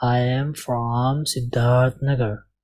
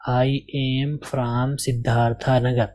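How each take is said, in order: First: "I am from سدھارتھ Nagar" very slow with short "سدھارتھ"; slow teacher's correct reading. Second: "I am from سدھارتھا Nagar" read slowly with "سدھارتھا" ending in a; mock learner mistake "سدھارتھا"; learner's wrong reading. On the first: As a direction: model the right version carefully. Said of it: "میں جب پڑھوں گا تو کیا پڑھوں گا". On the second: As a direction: imitate the student's error, slowly. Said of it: "مان لیجیے آپ بھی یہی پڑھ کر آئے تھے". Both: Shown as a demonstration.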